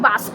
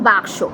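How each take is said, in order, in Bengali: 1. s ধ্বনিটি k ধ্বনির আগে আসে। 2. k ধ্বনিটি s ধ্বনির আগে আসে।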